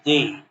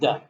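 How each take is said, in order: First: It is the pronunciation used before a vowel. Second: It is the pronunciation used before a consonant. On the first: The next word starts with a vowel sound. "When this comes with vowel sound, it is pronounced the" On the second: The next word starts with a consonant sound. "otherwise the"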